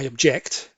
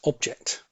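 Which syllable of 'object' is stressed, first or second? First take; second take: second; first. First: The stress is on the second syllable. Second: The stress is on the first syllable. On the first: It is the verb meaning to protest. The speaker calls it wrong. "It's not I object" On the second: It is the noun meaning a thing. The speaker calls it right. "it's object"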